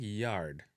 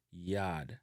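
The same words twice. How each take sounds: First: YARD with the R sounded; English-style "yarrd"; English pronunciation. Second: YARD as "yaad", long A and no R; Jamaican pronunciation. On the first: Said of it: "in a English". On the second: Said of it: "in a Jamaican". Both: Shown as a demonstration.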